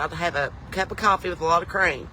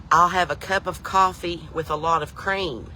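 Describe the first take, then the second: First: Said in the usual way. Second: Each word of "cup of coffee" drawn out and separated; slow, careful repeat. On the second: Retold or imitated. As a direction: slowly spell out "cup of coffee with a lot of cream". Repeats order for baffled waitress.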